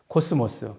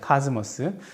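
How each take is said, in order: First: The word is said with 'oh' vowels throughout. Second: The word starts with an 'ah' vowel, then a reduced vowel. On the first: This is the Greek pronunciation. "헬라어로 코스모스라고 이렇게 얘기합니다" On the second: This is the English pronunciation. "영어로는 발음이 카스머스잖아요"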